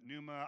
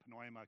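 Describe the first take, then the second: First: The word starts with a silent P. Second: The word starts with an audible P. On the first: "Is that pneuma?" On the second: "I always say pneuma because let's pronounce the P for the fun of it"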